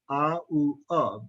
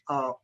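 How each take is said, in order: First: The word is said slowly with three vowel sounds. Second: The word is said quickly with the vowels merged. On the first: "if we speak slowly"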